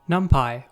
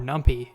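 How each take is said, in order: First: The word is said the usual way. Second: The word is said a playful, unusual way.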